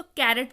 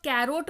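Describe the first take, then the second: First: "कैरेट" with a short, light E in the last syllable; correct pronunciation. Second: "कैरोट" with a long O in the last syllable; wrong pronunciation. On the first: Teacher giving learners the proper reading, "कैरेट" pronounced with a short E. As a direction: say "कैरेट", ending in a short "ret". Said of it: "इसको कैरेट पढ़िएगा". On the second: Teacher warning learners off a misreading, "कैरोट" mispronounced with a long O. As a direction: say "कैरोट", ending to rhyme with "boat". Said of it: "कैरोट मत पढ़िएगा". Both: Shown as a demonstration.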